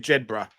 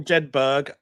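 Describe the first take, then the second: First: It is said the way British people pronounce it. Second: It is said the way Americans pronounce it. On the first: "British say Jedburgh" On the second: "Americans say Jedburgh"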